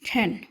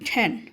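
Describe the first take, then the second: No difference in how they are said.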